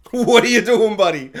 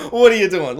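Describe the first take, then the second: First: Loud, laughing "What are you doing"; laughing disbelief. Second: Said in the usual way. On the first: Real, not acted. Vlogger laughing at fish-throwing peasant, loud disbelief.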